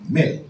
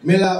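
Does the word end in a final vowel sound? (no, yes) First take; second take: no; yes. First: The word ends without a final vowel. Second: The word ends with a final vowel. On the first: This is the Bengali pronunciation. "Bangla উচ্চারণ হচ্ছে মেল" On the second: This is the Hindi pronunciation. "মেলা উচ্চারণ করা হয় হিন্দিতে"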